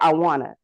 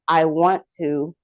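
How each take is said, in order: First: The 't' sounds are dropped, giving 'wanna'. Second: Every sound of 'want to' is pronounced. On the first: "when we take out some of the letters" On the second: "instead of saying"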